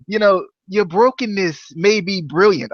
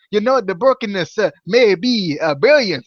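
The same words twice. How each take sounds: First: Lightly attempted Matt Hardy accent. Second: Halting, badly faked Jamaican accent; failed Jamaican accent. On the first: Host quoting Crazy Steve in the wrong voice, Matt Hardy accent. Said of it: "started to go with the Matt Hardy accent". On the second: Host quoting Crazy Steve, attempted Jamaican accent. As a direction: try a Jamaican accent and miss. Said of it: "trying to go with the Jamaican accent".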